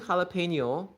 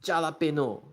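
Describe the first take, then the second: First: The word has its usual standard pronunciation. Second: The word has a distorted, unusual pronunciation. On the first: The speaker calls it right. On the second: The speaker calls it wrong.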